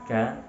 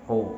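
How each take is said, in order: First: The vowel is open, like a. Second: The vowel is rounded and closed, like o. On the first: The speaker calls it right. "Suaranya infitah, membuka" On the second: The speaker calls it wrong. "tidak mengurung"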